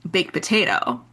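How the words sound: The stress falls on the word potato. The speaker calls it right. "the emphasis on potato, not baked"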